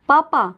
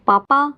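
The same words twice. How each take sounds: First: Calling out again. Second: A higher, louder call for papa, only half a shout; calling out loudly. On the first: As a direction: call papa once more, a touch more urgent. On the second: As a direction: call out for papa across the house, mildly raised. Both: A narrator's reading. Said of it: "जोर से चिल्लाते हुए बोली".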